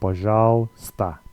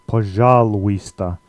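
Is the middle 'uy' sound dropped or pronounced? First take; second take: dropped; pronounced. First: The 'uy' sound is dropped from the middle. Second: Every letter is sounded, including the 'uy' sound. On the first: The speaker calls it right. "the uy sound gets dropped here, so you, you just say" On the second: The speaker calls it wrong. "if you sound this out in Cyrillic letters, it looks a bit like пожалуйста"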